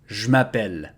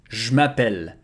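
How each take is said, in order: Both takes have the same delivery.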